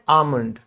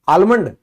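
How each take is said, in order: First: The L sound is left silent in the word. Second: The L sound is pronounced in the word. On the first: The speaker calls it right. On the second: The speaker calls it wrong.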